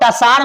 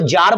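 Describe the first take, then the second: First: The word begins with a t sound. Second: The word begins with a j sound. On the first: The speaker calls it wrong. "इसको टसार मत बोलिएगा" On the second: The speaker calls it right. "इसको जार बोलते हैं"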